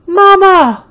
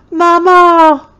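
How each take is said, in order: First: Loud, high shriek. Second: Put-on loud, high child's wail; a toddler wailing for her mother. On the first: Hysterical toddler shrieking for her mama, loud and high. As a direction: scream out in panic. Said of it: "Eatha shrieked again". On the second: Terrified toddler wailing for her mama, loud and high. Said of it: "began to wail". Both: A narrator's reading.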